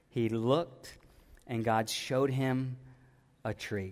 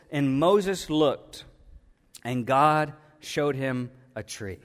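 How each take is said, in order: First: Hushed retelling. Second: Slow, deliberate reading of scripture. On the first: Preacher softly retelling the verse to the church, hushed. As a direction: drop to a near hush, drawing them in. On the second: Preacher reading the verse to the church, slow and deliberate. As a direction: read it out slowly, weighing each phrase. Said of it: "and it says". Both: Shown as a demonstration.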